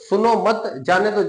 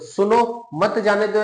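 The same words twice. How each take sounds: First: There is a pause after the word मत. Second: There is a pause after the word सुनो. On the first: The person should be allowed to leave. "जैसे ही आपके अल्प विराम की जगह change हुई" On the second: The person should be stopped from leaving. "यानी कि क्या करना है, उसको रोकना है"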